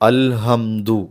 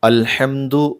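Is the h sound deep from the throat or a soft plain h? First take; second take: soft; deep. First: The h is a soft, plain breathy sound. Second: The h is a deep, tense throat sound. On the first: The speaker calls it wrong. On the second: The speaker calls it right.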